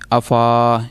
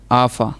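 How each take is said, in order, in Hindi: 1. 'f' के बाद का स्वर लंबा खींचा जाता है। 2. 'f' के बाद का स्वर छोटा रखा जाता है। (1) "अगर हम अलिफ पढ़ेंगे अफ़ा यानी लंबा होगा" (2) "इस वजह से हम इसको लंबा नहीं करेंगे"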